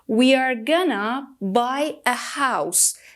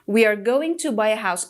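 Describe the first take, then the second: First: 'Going to' is reduced to 'gonna'. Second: 'Going to' is said fully as two words.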